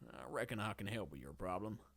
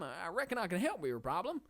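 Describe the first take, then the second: First: The voice is lower, older and more serious. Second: The voice is higher, younger and more cartoony.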